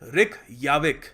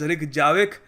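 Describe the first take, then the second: First: The middle consonant is a soft Y sound. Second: The middle consonant is a hard J sound. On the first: The speaker calls it right. "We will pronounce this" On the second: The speaker calls it wrong. "we won't really pronounce this as"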